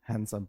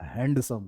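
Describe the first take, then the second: First: The d sound is left out of the word. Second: The d sound is clearly pronounced in the word. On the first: The speaker calls it right. "हैंडसम पढ़ेंगे" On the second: The speaker calls it wrong. "हैंडसम नहीं पढ़ेंगे"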